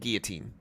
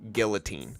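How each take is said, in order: First: The L sound is silent. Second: The L sound is pronounced. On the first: "I always thought that L was silent" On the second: "they almost always pronounce it like this"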